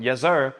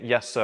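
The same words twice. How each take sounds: First: Punchy, showy callout of yes sir; schoolboy copying a singer at roll call, cocky callout; mock cool shout. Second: Said in the usual way. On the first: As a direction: shout it out like a teen trying to sound cool. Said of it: "I shouted out". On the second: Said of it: "instead of saying".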